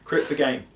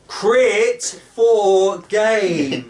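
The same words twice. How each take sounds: First: It is said at normal volume. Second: It is said slower and louder.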